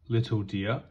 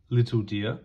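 Both takes have the same delivery.

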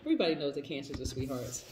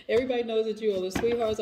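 First: Said in the usual way. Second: Laughing. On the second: Real, not acted. Laughing, teasing the viewers.

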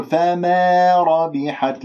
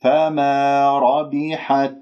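First: فما ربحت with فما said "fa-meh"; faulty fronted alif in فما ربحت; tilted alif, wrong. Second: فما ربحت with a pure long "maa"; correct, measured فما ربحت; untilted alif. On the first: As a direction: bend the long vowel of فما toward e, drawn out. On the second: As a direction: recite فما slowly with an open, level alif. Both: Shown as a demonstration. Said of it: "لا تمل صوت الألف".

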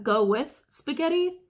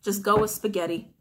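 First: "Go with spaghetti" slow and higher, drawn out with weight on "spaghetti"; said a special way. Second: Said in the usual way. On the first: Shown as a demonstration. Tarot reader to viewers, "Go with spaghetti" slow, higher, stressing "spaghetti". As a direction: slowly lean on "spaghetti". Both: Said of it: "I feel the need to say it like that".

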